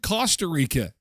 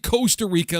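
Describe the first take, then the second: First: The first vowel sounds like in 'cost'. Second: The first vowel sounds like in 'coast'. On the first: "I've always said Costa Rica" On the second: "like the coast"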